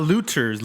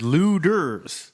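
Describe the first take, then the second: First: "looters" with a crisp T in the middle; "looters" as if from the word loot; hard T. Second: "Looters" said with a D, like "Luders"; drawn-out "Looters" pronounced LOO-ders; soft D. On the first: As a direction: sound the T clearly in "looters". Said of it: "No, not looters". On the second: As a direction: stretch "Looters" and soften the T to a D. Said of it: "L U D E R". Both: Shown as a demonstration.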